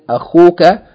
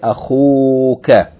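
First: The vowel after the kh is short. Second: The vowel after the kh is long. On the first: The speaker calls it wrong. "Instead of saying akhuka" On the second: The speaker calls it right. "we say akhuka, elongating the vowel"

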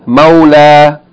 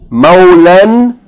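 First: The word ends with a long a vowel. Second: The word ends with a short a and n. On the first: The reader stops on this word. "if you stop or pause on it, you pronounce it as a long vowel sound" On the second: The reading continues without stopping. "If you continue reading, it is pronounced as a normal Tanween, A-N"

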